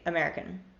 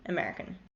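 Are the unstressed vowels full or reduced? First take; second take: reduced; reduced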